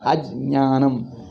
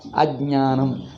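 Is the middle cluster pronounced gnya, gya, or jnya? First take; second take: jnya; jnya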